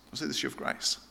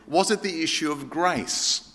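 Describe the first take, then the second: First: The question breathed out in a soft whisper. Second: Said in the usual way. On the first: Retold or imitated. Repeating the friend's question to the congregation, whispered. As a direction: echo the question almost silently. Friend asks, then echoed.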